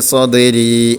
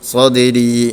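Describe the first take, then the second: The two takes are said the same way.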